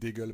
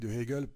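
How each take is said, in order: First: The word de is elided into Hegel. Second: The word de is kept separate before Hegel. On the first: The speaker calls it wrong. "et pas la philosophie d'Hegel parce que c'est pas très joli" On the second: The speaker calls it right. "je dis bien la philosophie de Hegel"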